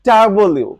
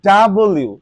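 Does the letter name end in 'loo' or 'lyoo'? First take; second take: lyoo; lyoo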